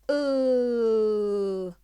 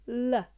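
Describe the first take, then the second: First: The L sound is said alone without vowel. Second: The L sound is followed by a vowel. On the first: The speaker calls it right. "just to say the vowel, the consonant sound" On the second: The speaker calls it wrong. "it's very important not to do this"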